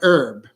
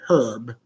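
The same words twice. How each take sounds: First: The word begins without any h sound. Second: The word begins with an audible h sound.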